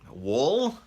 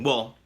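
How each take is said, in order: First: It is said in an exaggerated hick accent. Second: It is said in a plain, neutral accent.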